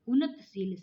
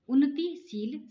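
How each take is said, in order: First: No vowel is heard between t and sh. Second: A short i is heard between t and sh. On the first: The speaker calls it wrong. "उन्नतशील शब्द नहीं होता है" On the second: The speaker calls it right. "उन्नतिशील शब्द होता है"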